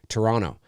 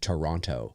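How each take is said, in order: First: The second T is dropped. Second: The second T is clearly pronounced. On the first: It marks the speaker as Canadian. "you always know a Canadian because they'll say Toronto" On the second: It marks the speaker as American. "Americans tend to pronounce the other uh, T"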